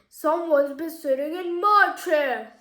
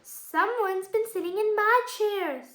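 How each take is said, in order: First: The voice is big, deep and booming. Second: The voice is of medium size and pitch. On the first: The largest bear is speaking. "in a big booming voice" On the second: The middle-sized bear is speaking. "in a medium-sized voice"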